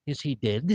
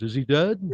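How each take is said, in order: First: A touch softer, dead said as DID; lightly affected rich-man vowel in dead; rich guy's dead. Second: Said in the usual way. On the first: Shown as a demonstration. Comic shows how rich guys say dead, softly as DID. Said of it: "way rich guys say it". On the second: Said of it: "a guy with no money goes".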